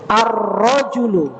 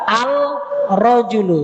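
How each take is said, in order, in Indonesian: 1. L menyatu dengan R ganda. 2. Bunyi L diucapkan dengan jelas.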